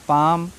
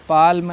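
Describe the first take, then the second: First: The L is silent before the M. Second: An L sound is pronounced before the M. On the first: The speaker calls it right. "एल silent है" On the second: The speaker calls it wrong. "ऐसे नहीं पढ़ना है"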